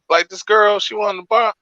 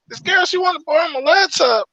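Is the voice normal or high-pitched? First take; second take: normal; high-pitched. First: It is said in a normal voice. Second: It is said in the roommate's high-pitched voice.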